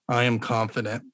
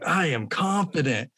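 First: It is said flatly, without conviction. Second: It is said with strong, hyped emotion.

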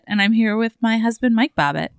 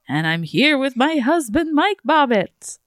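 First: It is said in her normal voice. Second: It is said in a put-on vampire voice.

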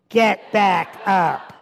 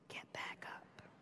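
First: It is said at the loudest volume. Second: It is whispered very softly.

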